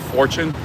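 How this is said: It is said with an English pronunciation. "in English we say fortune"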